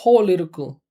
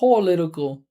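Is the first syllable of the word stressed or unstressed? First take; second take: stressed; stressed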